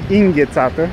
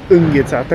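First: The word begins with a different vowel sound. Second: The word begins with a U sound. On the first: This form hints at a Hungarian background. "Ea spune înghețată. Ca să știe lumea că totuși e un pic de unguroaică" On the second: This is the form one person never uses. "Angie nu spune niciodată înghețată cu U"

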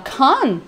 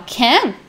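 First: The word is said in a more British way. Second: The word is said in a less British way. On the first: "fica mais British" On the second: "se você quiser falar can, legal"

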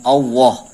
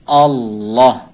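First: The middle sound is lip-rounded like W. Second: The middle sound is a clear tongue L. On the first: The speaker calls it wrong. "bukan Allah" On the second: The speaker calls it right. "Jadi pakai lam. Lafdzul jalalah itu lam"

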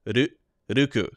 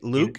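First: The name starts with an R sound. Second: The name starts with an L sound.

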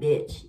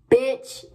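First: The word is said softly, without force. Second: The word is said forcefully and aggressively. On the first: The speaker calls it wrong. "You can't be like bitch" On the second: The speaker calls it right. "You gotta be real aggressive with it"

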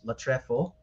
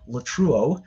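First: The middle sounds like 'ef', giving 'latrefo'. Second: The middle is a vowel glide, giving 'latreuo'. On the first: The speaker calls it right. "if you want to use the proper Koine Greek pronunciation" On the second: The speaker calls it wrong. "that cringy Erasmian pronunciation they always use in seminaries"

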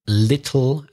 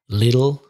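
First: The middle T is a crisp T sound. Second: The middle T sounds soft, like a D. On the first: "Another thing is the T sound in British English" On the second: "In American, it's more like a D"

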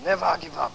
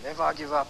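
First: It is said somewhat louder. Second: It is said at a normal, softer volume.

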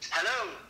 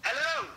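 First: It is said in a calmer, cooler way. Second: It is said with lots of enthusiasm.

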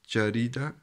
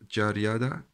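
First: The middle syllable sounds like 'ri'. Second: The middle syllable sounds like 'ria'. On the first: The speaker calls it right. "Das heißt Jarida" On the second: The speaker calls it wrong. "Das heißt nicht Jariada"

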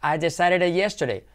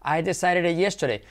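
No difference in how they are said.

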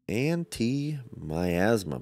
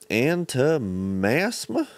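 First: The word is said in full with every syllable. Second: The word is squeezed, dropping the 'mi' syllable. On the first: The speaker calls it right. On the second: The speaker calls it wrong.

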